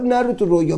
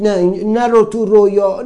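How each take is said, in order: First: Said in the usual way. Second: Loud, high insistent warning; the mind pushing him out of his dream; nagging inner voice. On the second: Retold or imitated. The mind forbidding him to dream, loud and urgent. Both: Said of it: "همش میگفت".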